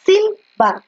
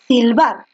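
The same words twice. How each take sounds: First: "silbar" with "bar" jumped up high; teacher pitching up the last syllable of "silbar"; stress on BAR. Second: Said in the usual way. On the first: Shown as a demonstration. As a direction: push the voice onto "bar" in "silbar". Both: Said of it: "fuerza de voz en la bar".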